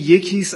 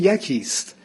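First: Its vowels do not rhyme with andakist. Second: Its vowels rhyme with andakist. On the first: The speaker calls it wrong. "اگر بگیم یکیست از ذره آوایی با اندکیست تفاوت پیدا میکنه" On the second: The speaker calls it right. "ناچاریم بگیم یکیست"

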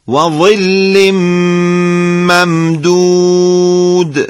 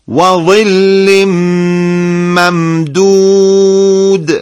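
No difference in how they are said.

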